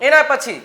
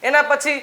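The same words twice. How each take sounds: No difference in how they are said.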